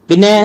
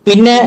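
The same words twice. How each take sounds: No difference in how they are said.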